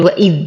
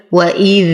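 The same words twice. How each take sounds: First: وإذ with the final dhal cut off short. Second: وإذ with the final dhal held on; flowing soft dhal. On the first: Teacher showing students the mistake, وإذ with dhal cut short. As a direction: stop the dhal of وإذ abruptly. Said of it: "ولا أقول وإذ". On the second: Teacher showing correct recitation, وإذ with a lingering dhal. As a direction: let the sound run on through the dhal of وإذ. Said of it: "فيها رخاوة وجريان للصوت". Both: Shown as a demonstration.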